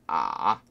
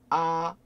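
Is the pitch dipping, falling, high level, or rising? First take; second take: dipping; high level. First: The pitch dips low and then comes back up. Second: The pitch stays high, level and long. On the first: "꼬꾸라지면서 어떻게 돼요?" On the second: "그러면 길게 아, 아, 이게 1성이 되겠죠"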